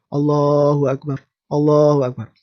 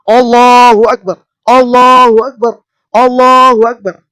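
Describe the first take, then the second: First: Said in the usual way. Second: Much louder and higher, a fiery battle cry; Bung Tomo rousing shout. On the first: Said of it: "kemudian bicaranya cukup". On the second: Shown as a demonstration. Bung Tomo firing up the masses, a full-throated rousing shout. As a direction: roar it out to set the crowd ablaze. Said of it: "dengan kerasnya mengatakan".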